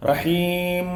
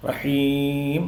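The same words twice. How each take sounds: First: റഹീം with the ഉം dragged out; റഹീം ending in a long ഉം; drawn-out um ending. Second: റഹീം ending with lips closed on മ; റഹീം with a short closed മ at the end; closed lips on meem. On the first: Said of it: "ഉം എന്ന് പറഞ്ഞിട്ട് നീണ്ടു". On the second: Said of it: "ചുണ്ടിങ്ങനെ കൂടണം". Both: Shown as a demonstration.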